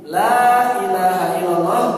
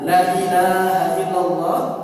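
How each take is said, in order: First: The vowel after the first l is long. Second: The vowel after the first l is short. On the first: There is no god worthy of worship except Allah. The speaker calls it right. "dengan lam yang panjang" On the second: There is a god besides Allah. The speaker calls it wrong. "Kalau misalkan ada yang adzan bacanya asyhadu al la ilaha illallah, mengubah makna"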